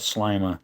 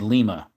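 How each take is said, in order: First: The first vowel sounds like 'eye'. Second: The first vowel sounds like 'ee'. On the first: This is how the local town name is said. "You pronounce it like lima beans" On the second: This is how the name is said in Spanish. "Spanish it would be Lima"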